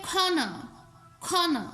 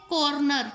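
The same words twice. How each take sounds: First: खाना as kho-na, corner without either r; silent r. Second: कॉर्नर with both r sounds pronounced; sounded r. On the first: Teacher showing the original pronunciation of corner, silent r. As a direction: puff the k and drop both r sounds in खाना. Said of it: "आर इधर भी silent". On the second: Teacher showing the common way we say it, sounded r. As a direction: say कॉर्नर as kor-nar. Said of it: "हम कहते हैं". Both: Shown as a demonstration.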